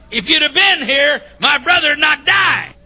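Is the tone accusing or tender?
accusing. It is said in an accusing tone.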